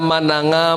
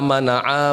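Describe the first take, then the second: First: The middle consonant is an ng sound. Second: The middle consonant is a throat ain sound. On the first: The speaker calls it wrong. "Ini mananga" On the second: The speaker calls it right. "Seharusnya kan ... pakai ain"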